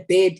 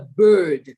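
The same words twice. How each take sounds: First: The vowel sounds like the one in bed. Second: The vowel sounds like the one in bird. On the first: The speaker calls it wrong. "there's nothing called a bird in the sky" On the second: The speaker calls it right. "It is a bird. And he'd force me to enunciate"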